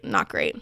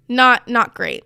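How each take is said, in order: First: "not great" breathed without voice; whispered. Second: Said in the usual way. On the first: Real, not acted. Judging the dance to viewers, whispered aside. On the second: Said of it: "repeated phrase, second whispered".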